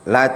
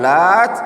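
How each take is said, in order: First: The final t is short and single. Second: The final t is doubled and held longer. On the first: It names the idol of the Thaqif tribe. "dibaca dengan takhfif" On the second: It refers to a pious man who prepared food. "kalau dibaca dengan tasydid"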